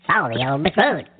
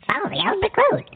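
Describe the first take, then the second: First: Said in the usual way. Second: Squeaky high helium voice; sing-song chipmunk pitch. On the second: Shown as a demonstration. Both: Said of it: "how's this one".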